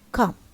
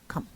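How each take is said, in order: First: The pitch falls on the word. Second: The pitch stays level on the word. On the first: "number one, falling" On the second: "the level one, no rise, no fall"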